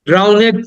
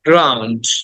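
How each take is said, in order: First: The ending is an extra syllable, 'ned'. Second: The word ends in a short 'nd'. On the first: The speaker calls it wrong. "ড্রাউনেট না" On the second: The speaker calls it right. "ডর উচ্চারণ হয়"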